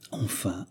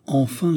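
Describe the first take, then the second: First: Hushed relief. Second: 'enfin' lifted higher with a rising end; emphatic repeat. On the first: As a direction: say 'Enfin' very softly, as if to oneself. Savours a long-awaited capture. (« Enfin » soufflé tout bas) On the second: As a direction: raise 'enfin' in growing triumph. (« enfin » appuyé, plus aigu, qui monte) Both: A narrator's reading.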